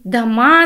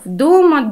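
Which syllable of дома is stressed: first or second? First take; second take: second; first. First: The stress is on the second syllable. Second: The stress is on the first syllable. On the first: "Для ямба же ударение будет всегда на второй слог от начала строки поэтической" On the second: "вот в хорее у нас все ударения падают на первый слог от начала строки"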